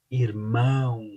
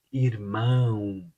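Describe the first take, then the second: No difference in how they are said.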